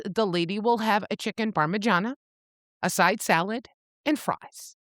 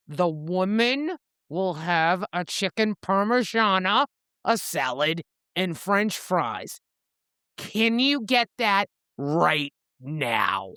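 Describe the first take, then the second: First: Said in the usual way. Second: Slow, deliberate, mildly menacing retold order; a tad aggressive. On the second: Reaper orders from the snooty waiter again, a tad aggressive. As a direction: spell out the order firmly, word by word. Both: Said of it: "Reaper gets a tad aggressive".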